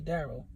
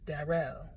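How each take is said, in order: First: The name is said in a standard accent. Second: The name is said in a Jamaican accent. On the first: This is how most people say it. "You know how people say Daryl" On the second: This is how the foster mother said it. "she pronounced it"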